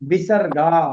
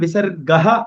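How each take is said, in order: First: The word ends on a plain long vowel. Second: The word ends with an added 'ha' sound.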